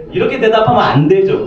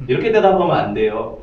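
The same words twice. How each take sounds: First: "대답하면" pushed higher and louder as a firm warning; 대답하면을 높고 크게 힘주어; emphatic warning. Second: Said in the usual way. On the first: Shown as a demonstration. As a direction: press hard on "대답하면", raised and loud.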